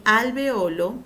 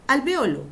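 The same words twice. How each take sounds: First: "alveolo" stressed on O, al-ve-Ó-lo; penultimate stress. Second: "Alveolo" stressed on VE, al-VÉ-o-lo; antepenultimate stress. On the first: Teacher giving second accepted form, slow "alveolo" as al-ve-Ó-lo. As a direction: slowly lean on the O in "alveolo". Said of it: "puede llevar tilde y se escribe sin". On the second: Teacher giving first accepted form, "Alveolo" as al-VÉ-o-lo. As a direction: punch VE in "Alveolo", then fall away. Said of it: "Seguimos con la doble acentuación". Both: Shown as a demonstration.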